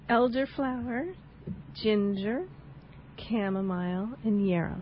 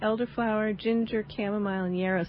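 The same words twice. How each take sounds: First: The list is spoken slowly. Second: The list is spoken at a normal pace.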